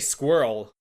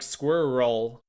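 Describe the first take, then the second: First: The word is said as one syllable. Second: The word is said as two syllables. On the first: The speaker calls it right. "Just say squirrel" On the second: The speaker calls it wrong. "You don't have to pronounce it like two syllables"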